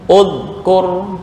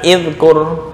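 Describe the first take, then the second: First: The word begins with a 'u' vowel. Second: The word begins with an 'i' vowel. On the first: The speaker calls it right. "Zakaro yadkuru ulkur" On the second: The speaker calls it wrong. "bukan idkur"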